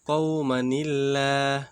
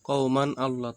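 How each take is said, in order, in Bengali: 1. শব্দ দুটি একটি সংযোগকারী 'ni' ধ্বনি দিয়ে যুক্ত। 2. দুটি শব্দ আলাদাভাবে, সংযোগ ছাড়া উচ্চারণ করা হয়।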